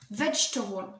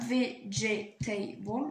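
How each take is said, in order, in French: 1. On le prononce avec trois syllabes, une voyelle est supprimée. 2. On le prononce avec quatre syllabes pleines. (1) "ils vont supprimer le E et ils vont un peu changer la prononciation" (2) "normalement, il y a trois syllabes. Vegetable, même quatre"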